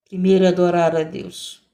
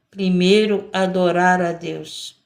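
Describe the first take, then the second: First: "Primeiro" hit first and hardest, rest even; stress on primeiro. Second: "adorar" stretched out slowly and leaned on, "Primeiro" light; slow stress on adorar. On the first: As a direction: lead with a firm "Primeiro". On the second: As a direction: drag out "adorar" as the key word. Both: Shown as a demonstration.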